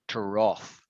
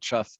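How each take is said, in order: First: The vowel does not sound like rough. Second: The vowel sounds like the one in rough. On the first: The speaker calls it right. "It's trough" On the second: The speaker calls it wrong. "You'd think if it sounded like that, it would be trough, right? But it's not trough"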